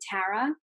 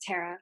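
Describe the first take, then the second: First: The first vowel is a hard A. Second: The first vowel is an in-between sound. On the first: This is how the family says the name. "My family actually pronounces it with a hard A" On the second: This is a compromise between two pronunciations. "I do, like, an in-between. It's just Tara"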